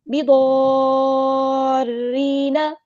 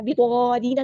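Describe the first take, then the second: First: बिदॉरीना chanted slowly with a long drawn madd; correct recitation. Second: बिदॉरीना said quickly, without the long madd; wrong reading. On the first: Teacher gives students the right reading, chanting. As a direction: stretch बिदॉरीना melodically. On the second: Teacher shows students the mistake to avoid, plain speech. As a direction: speak बिदॉरीना flat and short. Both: Shown as a demonstration. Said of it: "बिदॉरीना नहीं पढ़ना".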